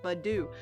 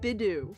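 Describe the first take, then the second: First: The name begins with a 'bud' sound. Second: The name begins with a short 'bih' sound. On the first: The speaker calls it right. "it's spelled bud. Like a bud. Like Badu" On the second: The speaker calls it wrong. "I've always called it Bidoof for some reason"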